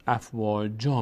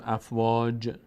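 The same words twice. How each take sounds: First: "افواجا" with a final long a; correct alef stop. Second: "افواج" ending on a bare j; wrong stop. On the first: Teacher showing what we do say, final long a. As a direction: end "افواجا" slowly on open alef. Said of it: "میگیم". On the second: Teacher showing what we don't say, ends on j. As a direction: cut "افواج" off at the j, no final vowel. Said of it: "ما دیگه نمیگیم". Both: Shown as a demonstration.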